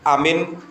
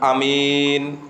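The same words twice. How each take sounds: First: Both the first and second vowels are short. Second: The first vowel is short, the second long. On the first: Safe. "Kalau dibaca pendek semua, alifnya dibaca pendek, mimnya dibaca pendek" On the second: Trustworthy. "Kalau mimnya tok yang dibaca panjang, alifnya nggak dibaca panjang"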